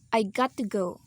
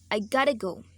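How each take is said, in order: First: Got to is said fully with a clear t. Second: Got to is reduced to gotta with soft t. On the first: "We usually uh, use that uh, pronunciation" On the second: "in this rule we we gonna say"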